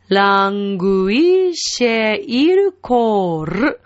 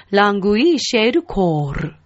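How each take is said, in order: First: "ラングイシェイルコール" very slowly, long vowels, trilled ending; rolled final R. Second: "ラングイシェイルコール" joined up at a natural pace; connected Italian phrase. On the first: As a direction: draw out "ラングイシェイルコール" and roll the last "ル". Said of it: "ルも巻きます". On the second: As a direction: run "ラングイシェイルコール" together as one phrase. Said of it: "というふうになります". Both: Shown as a demonstration.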